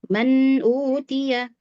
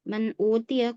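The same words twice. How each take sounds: First: The n sound is held full and flows on. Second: The n sound is cut short and thin. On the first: The speaker calls it right. "alirkan suara bainiyahnya, sempurnakan" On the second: The speaker calls it wrong. "kurang bainiyahnya"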